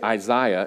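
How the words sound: Isaiah is pronounced the British way. The speaker calls it wrong. "I'm having a tendency to say Isaiah"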